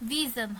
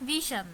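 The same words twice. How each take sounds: First: The ending has a voiced zh sound. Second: The ending has a voiceless sh sound. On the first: The speaker calls it right. "এটিও কিন্তু ভিশন হবে" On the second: The speaker calls it wrong. "নয়"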